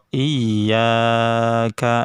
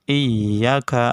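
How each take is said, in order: First: The vowel after y is held too long. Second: The vowel after y is cut too short. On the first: "terlalu panjang" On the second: "nah itu terlalu pendek"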